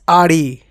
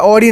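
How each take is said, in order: First: The first vowel is an open 'ah' sound. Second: The first vowel is a rounded 'aw' sound. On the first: The speaker calls it right. "It's आड़ी" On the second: The speaker calls it wrong. "मैंने एक बार ऑडी बोल दिया"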